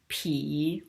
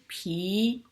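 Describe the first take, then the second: First: The syllable is said with a low dipping pitch. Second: The syllable is said with a rising pitch.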